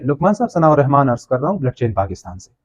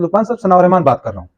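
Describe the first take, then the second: First: Softer, measured courteous phone intro; polite formal greeting on a phone call. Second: Quick, casual phone intro; just rattle off your name; quick everyday phone greeting; plain casual intro. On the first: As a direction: introduce yourself with respect. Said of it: "same thing को अगर मैं refresh करूँ". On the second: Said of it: "Now you see the difference". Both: Shown as a demonstration.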